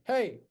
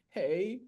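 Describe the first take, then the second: First: The word is said quickly and short. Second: The word is said slowly and drawn out.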